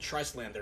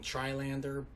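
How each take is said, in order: First: The S sound is pronounced in the middle. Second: The S sound is left out entirely. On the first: "I don't know if the S is silent" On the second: "I hear a lot of other people saying Trilander"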